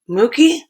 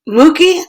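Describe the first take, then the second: First: It is said softly. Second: It is said more loudly.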